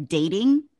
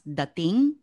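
First: "dating" with a long AY as in "day"; "dating" as DAY-ting; English spelling pronunciation. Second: "dating" with an open AH, as dah-TING; "dating" slowly, with AH instead of AY; Filipino pronunciation. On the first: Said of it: "It's spelled like dating". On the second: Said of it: "but it's pronounced dating". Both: Shown as a demonstration.

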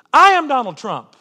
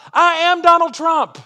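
First: Loud, laughing through the line; loud laughing confession; rueful laugh. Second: High, loud, slow, stress on Donald; ringing self-accusation; emphatic declaration. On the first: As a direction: repeat it with a wry, self-mocking laugh. Repeated with a laugh. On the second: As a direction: proclaim it like a confession from the pulpit. Climactic self-accusing sermon line. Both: Real, not acted.

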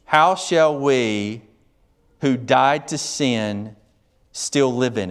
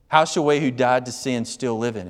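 First: Slow reading. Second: Said in the usual way. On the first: Shown as a demonstration. Reading Paul's question slowly.

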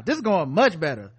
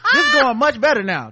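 First: Said in the usual way. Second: Said through laughter, louder; laughing. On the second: Pretend. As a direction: giggle through the line.

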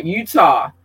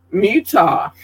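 First: "Utah" said as YOO-tah; corrected state name. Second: "Utah" with an M in front, MYOO-tah; mispronounced state name. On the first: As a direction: correct yourself, starting "Utah" on a clean Y sound. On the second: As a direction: slip an M onto the start of "Utah". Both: Real, not acted. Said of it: "I'm sorry, Utah".

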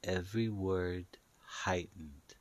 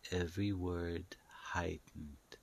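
The two takes are said the same way.

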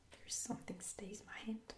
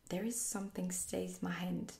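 First: Quiet whisper, rising at the end; puzzled quiet rise. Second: Said in the usual way. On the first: Shown as a demonstration. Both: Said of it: "What does that mean?".

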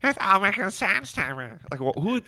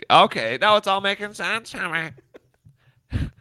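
First: High prim nerdy voice; teacher's pet voice. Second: Lightly voiced prim nerd, high; a hint of a prissy know-it-all; nerdy teacher's pet voice. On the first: Pretend. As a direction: play the smug front-row kid lightly. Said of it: "sounds like a teacher's pet sitting in the front row". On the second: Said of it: "I hate that voice".

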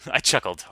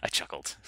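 First: I chuckled said loud and firm; louder. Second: I chuckled whispered softly. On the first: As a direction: punch it out, voiced and loud. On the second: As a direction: breathe it out, no voice. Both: Shown as a demonstration.

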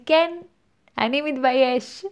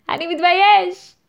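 First: Playfully owning it, a bit higher; proud declaration. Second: High, loud mock-triumphant cry; loud proud declaration. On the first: Pretend. Host modelling how to own your shame, proudly. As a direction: declare it with pride, breaking into a laugh. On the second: Host playfully shouting the shame out with pride. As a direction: proclaim it playfully at full voice. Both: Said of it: "ופשוט להחזיק בה בגאון, להגיד".

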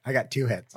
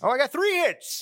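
First: Said in the usual way. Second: High surprised correction; correcting himself. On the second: Real, not acted. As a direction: correct yourself brightly.

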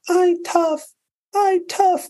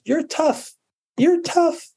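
First: Put-on tiny, very high toddler voice; imitated crying baby. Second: Put-on high-pitched mom talking to her baby; imitated coaxing mom. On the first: Baby who fell down copying mom, mock tearful squeak. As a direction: mimic a tearful one-year-old repeating after mom. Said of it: "And the baby goes". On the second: Mom to baby who falls down, imitated high coaxing. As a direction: coax a fallen baby in a high little voice. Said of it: "And the mom says".

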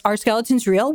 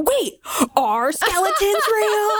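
First: Said in the usual way. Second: High, slow, stretched-out disbelief; squeaky-high baffled double take; mock incredulity. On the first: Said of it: "he goes". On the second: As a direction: imitate someone suddenly doubting everything. Acting out Aziz's dawning disbelief.

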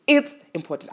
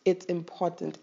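First: It's important, said higher and louder with a punch on It's; emphatic. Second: Said in the usual way. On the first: Shown as a demonstration. Urging viewers to practice Ubuntu, It's important said loud and emphatic. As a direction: hammer home It's important as the peak of the repeats. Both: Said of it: "I can't even emphasize it enough".

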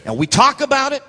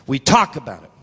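First: High emphatic TALK. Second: Low voice with a punched TALK, falling away; low emphatic repeat. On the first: Preacher chiding believers who only talk, high and emphatic. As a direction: TALK pitched high, voice held up at the end. Same line high, then low. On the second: Preacher repeating it to congregation, low and weighty. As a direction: drop it low and let it land. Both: Real, not acted.

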